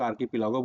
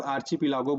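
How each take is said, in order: First: आर्किपिलागो with a hard "k" sound; "k" pronunciation. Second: आर्चिपिलागो with a "ch" sound, as in chip; "ch" pronunciation. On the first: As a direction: say आर्किपिलागो with KI in the middle. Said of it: "कई लोग आर्किपिलागो बोलते हैं". (आर्किपिलागो में "क" की ध्वनि) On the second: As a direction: say आर्चिपिलागो with CHI in the middle. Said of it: "कई लोग आर्चिपिलागो बोलते हैं". (आर्चिपिलागो में "च" की ध्वनि) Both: Shown as a demonstration.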